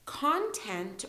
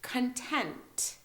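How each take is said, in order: First: CONTENT with the first syllable stressed, "CON-tent". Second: CONTENT with a quick "kun", then stressed TENT. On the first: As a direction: say CONTENT slowly, hitting CON. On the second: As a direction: say CONTENT slowly, hitting the second syllable. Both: Shown as a demonstration. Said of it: "this is how we say them".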